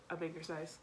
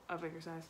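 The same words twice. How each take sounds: The two takes are said the same way.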